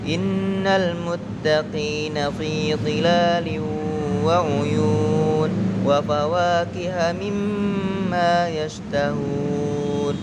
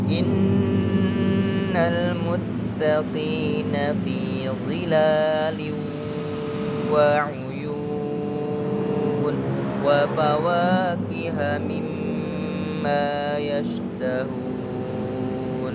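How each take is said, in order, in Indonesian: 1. Dibaca dengan tempo sedang. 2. Dibaca dengan pelan dan tenang. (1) "diantara kecepatan sedang dan cepat" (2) "Pelan, tenang"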